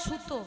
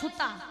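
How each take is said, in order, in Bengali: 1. শব্দটি o স্বরবর্ণ দিয়ে শেষ হয়। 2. শব্দটি a স্বরবর্ণ দিয়ে শেষ হয়। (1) "আমাদের বর্ধমানে কি বলে?" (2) "নদিয়ায় বলে"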